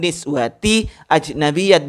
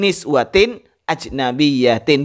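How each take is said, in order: First: Both words end without an added n sound. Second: Both words end with an added n sound. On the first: The speaker calls it wrong. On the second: The speaker calls it right. "harus tanwin"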